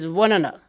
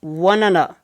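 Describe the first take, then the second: First: The words are reduced and run together. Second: The same.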